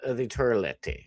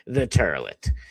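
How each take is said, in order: First: It is said in a plain accent. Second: It is said in a New Jersey accent.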